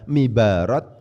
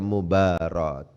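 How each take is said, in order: First: The first vowel is an i sound. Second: The first vowel is a u sound. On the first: The speaker calls it wrong. "dibaca mibarat berarti salah" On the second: The speaker calls it right. "Harus dibaca mubarat. Memnya harus didhamma"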